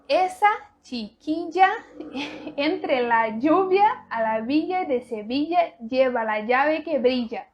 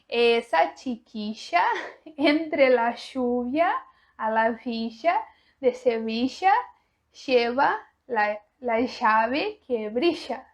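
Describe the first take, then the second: First: It is said in the speaker's usual, non-Argentine accent. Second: It is said in an Argentine accent. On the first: "da maneira que eu já falo" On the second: "com o sotaque argentino"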